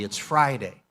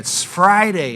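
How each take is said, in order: First: It is said softly and quietly. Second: It is said loudly and forcefully.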